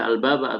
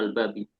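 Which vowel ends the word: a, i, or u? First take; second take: a; i. First: The word ends with the vowel a. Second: The word ends with the vowel i. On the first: "nggak boleh" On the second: "nggak boleh"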